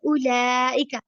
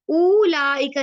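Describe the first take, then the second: First: The first vowel is kept short. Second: The first vowel is stretched long. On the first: The speaker calls it right. "मैं पढ़ी उलाइका" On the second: The speaker calls it wrong. "यहाँ पे उलाइका नहीं मैं पढ़ी"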